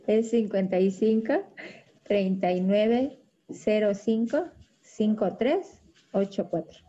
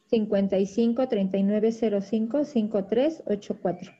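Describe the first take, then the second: First: The number is said at a slower pace. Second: The number is said at a faster pace.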